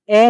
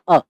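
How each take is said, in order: First: The vowel is said like 'ay'. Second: The vowel is said like a short 'uh'. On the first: The speaker calls it wrong. "ये इसका उच्चारण हमें ए नहीं करना है" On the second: The speaker calls it right. "इसका उच्चारण एकदम ऐसे करना अ"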